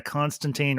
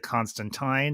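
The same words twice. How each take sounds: First: Put-on Constantine ending like "teen"; usual Constantine pronunciation. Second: Constantine ending like "tine", rhyming with "fine"; Sandman's Constantine pronunciation. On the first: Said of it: "or as the Sandman pronounced it". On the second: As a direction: say Constantine with a final "-tyne". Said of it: "as the Sandman pronounced it". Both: Shown as a demonstration.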